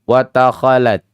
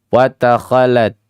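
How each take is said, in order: No difference in how they are said.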